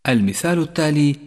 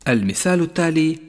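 No difference in how they are said.

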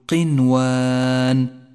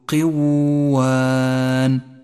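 First: The n sound is pronounced clearly before w. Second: The n sound merges nasally into the w. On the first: The speaker calls it right. "صوابه أن تقول قنوان" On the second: The speaker calls it wrong. "فلا نقول قوان، فهذا خطأ فاحش"

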